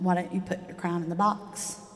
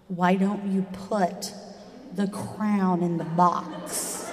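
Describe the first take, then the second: First: It is said in a plain, ordinary tone. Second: It is said in an exaggeratedly patient tone.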